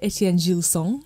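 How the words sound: The name is said in a French accent. The speaker calls it right. "Did you like my little French accent there?"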